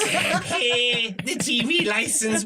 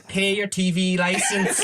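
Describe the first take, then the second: First: Put-on very slow, higher, drawn-out Armagh accent with every word stretched; bad Armagh accent. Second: A laughing, slow put-on Armagh accent, like a wise old local; bad Armagh accent. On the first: The wedding woman pleading with Brian to pay the licence, in a drawn-out Armagh accent. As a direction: stretch the words right out in a hammed-up Armagh accent. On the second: An older Armagh woman advising the listener to pay, in a laughing bad Armagh accent. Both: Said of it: "this is a bad Armagh accent".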